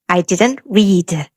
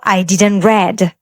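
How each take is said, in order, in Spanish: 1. Read se dice con la vocal de la forma base, como reed. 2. Read se dice con la vocal del pasado, como red. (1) "Es I didn't read" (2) "¿cómo estaría mal para ponerlo en este ejemplo si yo digo I didn't read?"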